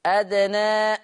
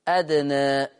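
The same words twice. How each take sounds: First: أدنى ending on an open a; أدنى with a plain open a; fath reading. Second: أدنى with the final alif tilted toward e; أدنى with a half-raised a; taqlil reading. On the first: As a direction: recite أدنى with a clean fath. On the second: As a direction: recite أدنى with a slight lean toward e. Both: Shown as a demonstration. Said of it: "بالفتح والتقليل".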